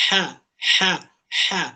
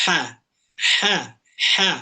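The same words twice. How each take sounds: Both takes have the same delivery.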